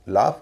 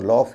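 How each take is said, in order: First: The vowel is an open 'ah' sound. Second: The vowel is a rounded 'aw' sound. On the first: The speaker calls it right. "इसमें ए यू का उच्चारण आ होता है" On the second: The speaker calls it wrong. "इसे लॉफ या ऑन्ट नहीं कहेंगे"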